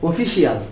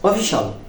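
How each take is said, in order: First: The ending is two syllables, 'shi-al'. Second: The ending is one syllable, 'shal'. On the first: The speaker calls it wrong. "আমরা সর্বদা ... ব্যবহার করি" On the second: The speaker calls it right. "তাহলে এখন থেকে কি বলবো?"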